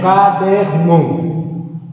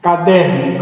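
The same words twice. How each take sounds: First: "caderno" very slowly as CA-DER-NO; syllable by syllable. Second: Said in the usual way. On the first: Shown as a demonstration. Teacher breaks the word up to identify its tonic syllable, slowly. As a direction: stretch and separate each syllable of "caderno". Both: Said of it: "Identifica a sílaba tônica".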